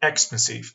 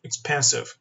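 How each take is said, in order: First: "expensive" with the stress wrongly on EX; stress on first syllable. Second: "expensive" stressed correctly on PEN; stress on second syllable. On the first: Teacher quizzing students on two pronunciations, "expensive" stressed on the first syllable. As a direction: punch the opening syllable of "expensive". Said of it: "کدوم یکی از این دو تا تلفظ درست بود".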